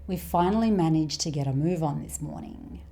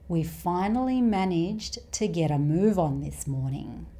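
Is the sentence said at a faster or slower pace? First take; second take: faster; slower. First: It is said at a faster, natural pace. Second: It is said at a slightly slower pace. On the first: "the second time at a more natural speed" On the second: "the first time at a slightly slower speed"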